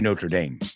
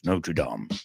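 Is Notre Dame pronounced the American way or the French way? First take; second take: American; French. First: It is said with an American pronunciation. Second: It is said with a French pronunciation. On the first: This is the name of the university. "But we say Notre Dame because it's a university" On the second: This is the original form of the name. "Notre Dame is the real way to pronounce it"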